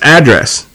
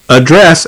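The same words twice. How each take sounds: First: It is said with an American accent. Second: It is said with a British accent.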